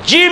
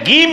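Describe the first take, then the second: First: The word begins with a j sound. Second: The word begins with a g sound.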